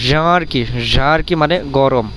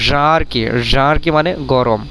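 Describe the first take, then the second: Both takes have the same delivery.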